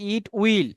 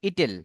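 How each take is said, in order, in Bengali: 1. এটি দুটি পূর্ণ শব্দ হিসেবে বলা হয়। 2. এটি একসাথে মিলে একটি ছোট শব্দ হয়ে যায়। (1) "আমরা বলি ইট উইল" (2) "এটাকে আপনি কি বলবেন? ইটেল।"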